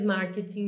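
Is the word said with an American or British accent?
British. It is said with a British English accent. "marketing mais é, British English"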